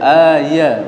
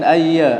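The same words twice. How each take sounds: First: The y sound is held and doubled. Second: The y sound is short and single. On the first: The speaker calls it wrong. "bukan ayya ayya" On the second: The speaker calls it right. "A ayya ayya"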